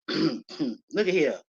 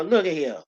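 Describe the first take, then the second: First: "Look at here" drawn out slowly and softer; slow it right down to make them look; slow emphatic repeat. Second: Said in the usual way. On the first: Shown as a demonstration.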